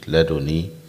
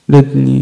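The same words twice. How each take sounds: First: The d is followed by a vowel, no doubling. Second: The d is silent, with rounded lips. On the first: "بكسر فقط بدون تشديد" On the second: "بإسكان الدال مع الإيماء بالشفتين"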